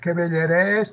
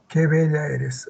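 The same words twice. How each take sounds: First: The voice rises at the end. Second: The voice falls at the end.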